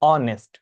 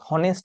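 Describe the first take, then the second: First: The word begins directly with a vowel sound. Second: The word begins with an audible h sound. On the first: The speaker calls it right. "এক্ষেত্রে উজ্জ থাকে এইচটা" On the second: The speaker calls it wrong. "অনেকে উচ্চারণটাকে হনেস্ট বলেন, কিন্তু না"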